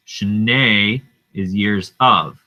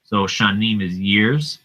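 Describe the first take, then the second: First: Slow "Shnei is years of", weight on "of"; teacher stressing "of". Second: Said in the usual way. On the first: Shown as a demonstration. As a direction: spell out "years of" slowly.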